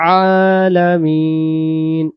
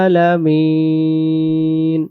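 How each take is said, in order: The two takes are said the same way.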